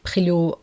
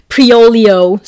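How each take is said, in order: First: Prilot said the French way, with a throaty r; French pronunciation. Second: Priolio spelt out English-style, loud and slow; anglicized pronunciation. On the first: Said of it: "you would pronounce it". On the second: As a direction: sound out Priolio as pree-OH-lee-oh, drawn out. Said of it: "instead of". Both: Shown as a demonstration.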